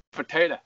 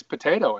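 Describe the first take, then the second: First: Potato. ending in a short uh, Wisconsin style; Potato. with the last vowel clipped to uh; Wisconsin accent. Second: Potato with a clear oh ending; potato said the Idaho way, ending in oh; plain. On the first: Retold or imitated. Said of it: "I just caught that in your Wisconsin". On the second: Shown as a demonstration. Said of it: "it's potato, I think".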